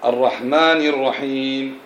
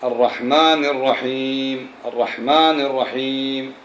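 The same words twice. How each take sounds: First: الرحمن said slowly with the final nun carrying kasra, linked into الرحيم; correct kasra. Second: الرحمن said slowly with the final nun stopped and silent, no kasra; wrong nun stop. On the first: Teacher to students, modelling the correct reading slowly. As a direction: show the right way, connecting الرحمن ِ الرحيم. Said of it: "فاقرأ هكذا". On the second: Teacher to students, demonstrating the common wrong reading slowly. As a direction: imitate the mistake of halting on الرحمن before الرحيم. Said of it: "يسكن النون فيقول إيش؟". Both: Shown as a demonstration.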